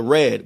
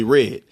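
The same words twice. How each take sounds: First: Said in the usual way. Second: RED as "rid"; Baltimore pronunciation. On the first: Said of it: "talking about the color red". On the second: Shown as a demonstration. Explaining to viewers, RED said as "rid". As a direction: make RED sound like "rid". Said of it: "Like R I D".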